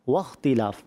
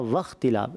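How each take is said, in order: First: The first sound is made with rounded lips. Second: The first sound is made with teeth on lip. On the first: The speaker calls it right. "اس کو جو پڑھتے ہیں ہونٹ گول کر کے پڑھتے ہیں" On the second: The speaker calls it wrong. "آپ کے دانت لگے ہونٹوں پر, تو اس کو کہتے ہیں فا کا مخرج"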